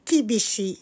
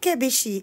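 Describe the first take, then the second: First: The first vowel sounds like 'i'. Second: The first vowel sounds like 'e'. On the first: The speaker calls it right. "Baka ang sinasabi niya is Kibishi" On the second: The speaker calls it wrong. "ano kaya yung Kebishi?"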